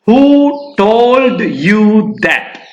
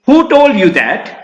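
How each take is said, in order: First: It is broken up with unnecessary pauses. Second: It flows smoothly as one question.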